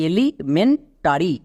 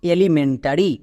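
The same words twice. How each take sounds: First: elementary broken as এলি, মেন, tarry; teacher sounding out elementary in chunks; slow part-by-part pronunciation. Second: elementary blended into one word; whole-word model at a more natural pace; joined-up pronunciation. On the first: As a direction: say elementary slowly with gaps between the parts. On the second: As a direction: run the parts of elementary together. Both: Shown as a demonstration. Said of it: "পুরো ওয়ার্ডের উচ্চারণ কি দাঁড়ালো".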